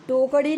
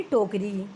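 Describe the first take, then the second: First: टोकरी as "tokaḍi" with a curled flap; flapped error. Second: टोकरी ending in a plain "ri"; correct r. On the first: Teacher citing the error, टोकरी with flap for r. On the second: Teacher correcting the error, टोकरी with clear r. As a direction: say टोकरी as "tokri" with tongue-tip r. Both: Shown as a demonstration. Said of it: "नहीं बल्कि".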